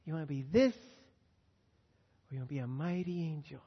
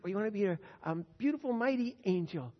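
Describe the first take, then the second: First: Gentle question. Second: Building question. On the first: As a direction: ask her tenderly, drawing it out. Asking his granddaughter, gently. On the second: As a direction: lift it toward the grand choice. Asks granddaughter again, rising. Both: Acted.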